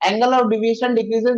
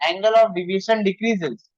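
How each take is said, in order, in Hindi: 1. यह तेज़ बोला गया है, बिना रुके, सब एक साथ। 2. यह धीरे बोला गया है, इसके बाद एक विराम के साथ। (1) "एक साथ बहुत सारे इंग्लिश बोलोगे तो सुनने में ऐसा लगेगा।" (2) "स्लो बोलू।"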